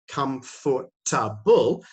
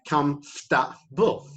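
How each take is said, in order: First: The middle syllables are pronounced fully and separately. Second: The middle syllables are reduced to one short cluster. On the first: The speaker calls it wrong. "we don't say comfortable" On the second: The speaker calls it right. "For and ta become fta. ... And we say comfortable"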